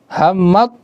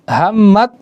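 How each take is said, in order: No difference in how they are said.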